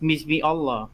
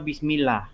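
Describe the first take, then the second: First: Allah starts with its own separate vowel. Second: Allah's first vowel is dropped and words merge. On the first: "kenapa di situ tidak dibaca bismi bis bismi Allah?" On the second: "Kenapa bismillah?"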